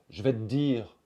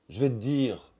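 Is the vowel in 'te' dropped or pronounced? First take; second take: dropped; dropped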